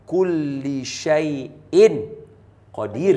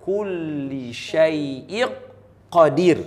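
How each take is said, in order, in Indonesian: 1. Bunyi n diucapkan dengan jelas sebelum qadir. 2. Bunyi n langsung melebur ke q yang mengikutinya.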